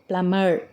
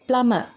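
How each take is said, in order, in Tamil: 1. இந்தச் சொல் r ஒலியுடன் முடிகிறது. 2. இந்தச் சொல் r ஒலி இல்லாமல் முடிகிறது. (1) "இது அமெரிக்கன் இங்கிலீஷ்" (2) "இது பிரிட்டிஷ் இங்கிலீஷ்"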